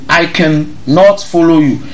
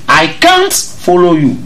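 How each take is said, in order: First: The negative is said in full as two syllables. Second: The negative is said as one contracted syllable. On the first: The speaker calls it wrong. "Don't say cannot" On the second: The speaker calls it right. "That is the correct pronunciation"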